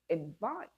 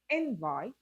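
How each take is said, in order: First: The stress is on the second syllable. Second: The stress is on the first syllable.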